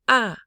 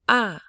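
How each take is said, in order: Both takes have the same delivery.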